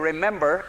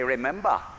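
First: It is said in the speaker's own accent. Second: It is said in a New England accent.

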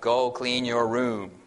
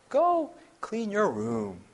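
First: The voice stays flat on one pitch. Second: The voice moves up and down melodically. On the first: It sounds threatening and without emotion. "it's monotone. It's almost threatening" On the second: It sounds like a friendly suggestion. "It's almost like it's a musical tone"

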